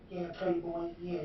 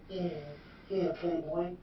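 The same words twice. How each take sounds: First: Higher put-on voice, Playboy drawn out; imitating Phil's voice. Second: Higher, airy put-on voice saying yeah yeah Playboy; imitating Phil's voice. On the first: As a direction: mimic his greeting again, lightly. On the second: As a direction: mimic his party-guy greeting lightly. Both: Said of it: "This is his voice he used".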